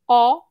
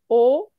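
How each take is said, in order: First: The vowel is open, with a wider mouth. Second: The vowel is closed, with a narrower mouth.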